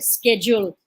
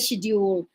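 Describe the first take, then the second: First: It is said with an American pronunciation. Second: It is said with a British pronunciation.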